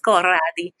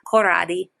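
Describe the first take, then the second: First: It is said in an Italian accent. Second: It is said in a plain American accent.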